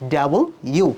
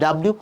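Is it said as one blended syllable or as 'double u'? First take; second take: double u; blended syllable. First: It is said clearly as double u. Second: It is said as a blended dablyu. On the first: The speaker calls it right. "প্রোনাউন্সটা হবে ডাবল ইউ" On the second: The speaker calls it wrong. "তুমি উচ্চারণ করো ভুল ডাব্লিউ বলে কোনো শব্দ নেই"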